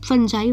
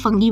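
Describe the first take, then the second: First: The word ends with a 'jai' sound. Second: The word ends with an 'ee' sound. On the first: This is how it was said at school. "फंजाई वैसे बोलते हैं" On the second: This is how the speaker personally says it. "मैं ऐसे फंगी बोलती हूँ"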